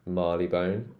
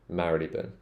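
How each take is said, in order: First: The name ends with a long 'bone' sound. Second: The name ends with a short 'bun' sound. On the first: This is the recent, common London pronunciation. The speaker calls it wrong. "Londoners have started to pronounce this as Marleybone" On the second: This is the old-fashioned pronunciation. The speaker calls it right. "Mary, le, bun, not bone, bun ... I actually pronounce it the old-fashioned way"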